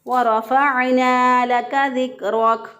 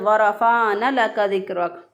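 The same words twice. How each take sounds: First: The final vowel of warafana is held long. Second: The final vowel of warafana is cut short. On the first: The speaker calls it right. "दुरुस्त अदायगी है" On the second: The speaker calls it wrong. "इसको खींचे ना"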